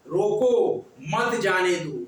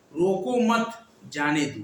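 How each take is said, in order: First: रोको said alone with a rise, pause, then मत जाने दो; pause after रोको. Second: रोको मत run together, pause, then falling जाने दो; pause after मत. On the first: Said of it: "रुकना पड़ता है". (रोको के बाद विराम, फिर मत जाने दो) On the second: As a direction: break after मत, before जाने दो. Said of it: "रोको मत के बाद लगाएंगे". (रोको मत के बाद विराम, फिर जाने दो) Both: Shown as a demonstration.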